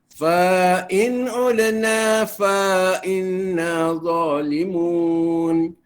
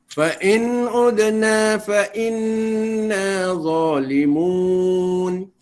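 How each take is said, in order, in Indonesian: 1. 'fa' pertama memiliki vokal yang dipanjangkan. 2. 'fa' pertama memiliki vokal pendek. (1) "jangan dipanjangkan lagi lah" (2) "Sepatut bacaannya"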